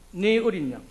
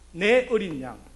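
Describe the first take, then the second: First: The first word has the closer 'e' vowel. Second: The first word has the open 'ae' vowel. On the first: It means your little lamb. The speaker calls it wrong. "이 말씀을 바로 잘못 발음하면" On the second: It means my little lamb. The speaker calls it right. "이 발음 잘 하셔야 됩니다"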